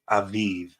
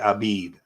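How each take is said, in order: First: The consonants are said as V sounds. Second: The consonants are said as B sounds. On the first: The letter has no dot inside it. "it would make the V sound" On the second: The letter has a dot inside it. "it makes the B sound. So you would say Abib"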